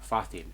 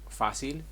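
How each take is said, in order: First: The c is said like a th sound. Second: The c is said like an s sound. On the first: This is the pronunciation used in Spain. "In Spain" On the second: This is the South American pronunciation. "In South America"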